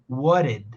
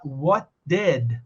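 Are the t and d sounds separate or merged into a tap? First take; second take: tap; separate. First: The t and d merge into a tapped r. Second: The t and d are pronounced separately. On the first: "ela juntou o T com D e falou uma vez só, e ela transformou esse som que foi junto num som de R" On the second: "Ao invés de falar what did"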